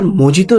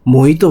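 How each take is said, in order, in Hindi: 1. बीच का व्यंजन j जैसा बोला जाता है। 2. बीच का व्यंजन h जैसा बोला जाता है। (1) "सर मोजितो नहीं" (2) "मोहितो होता है"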